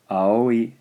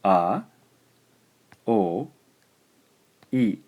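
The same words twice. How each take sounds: First: Aoi said as one flowing word; whole word. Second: A, o, i sounded out one at a time; syllable by syllable. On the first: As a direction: join the vowels into aoi. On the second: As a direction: break aoi into its vowels. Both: Shown as a demonstration. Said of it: "First syllable".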